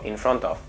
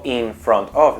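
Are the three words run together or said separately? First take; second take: together; separately. First: The three words are run together as one. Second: The three words are said separately, each fully. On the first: The speaker calls it right. "digo in front of ... Para mí es una palabra" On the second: The speaker calls it wrong. "yo no digo in front of"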